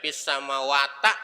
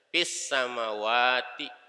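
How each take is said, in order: First: The last word ends with an a vowel. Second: The last word ends with an i vowel. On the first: The speaker calls it wrong. "Nggak boleh dibaca fis samawata" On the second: The speaker calls it right. "Nanti dibacanya kasroh"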